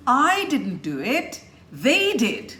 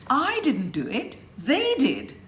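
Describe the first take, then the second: First: I and they punched high and loud; I didn't do it, they did, I and they stressed. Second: I and they punched high; stress on I and they. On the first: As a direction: hit I and they hard. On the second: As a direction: lean hard on I and they. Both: Shown as a demonstration. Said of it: "I wouldn't have stressed on I and they".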